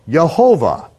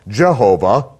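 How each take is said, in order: First: The name begins with a Y sound. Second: The name begins with a J sound. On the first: "a hybrid name, Yehovah" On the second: "they would mispronounce as Jehovah"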